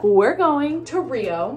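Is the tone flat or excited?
flat. It is said in a flatter, less excited tone.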